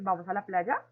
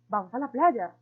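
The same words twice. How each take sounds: First: It is said with question intonation. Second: It is said as an emotional exclamation. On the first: It asks whether to go. "segundo lo hicimos de forma de pregunta" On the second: It expresses strong feeling about going. "el tercero con emocionalidad en forma de exclamación"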